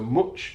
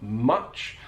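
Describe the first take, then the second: First: The vowel has a Northern English sound. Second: The vowel has a standard Southern sound. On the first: "a feature of a Northern English accent, so much" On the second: "not much"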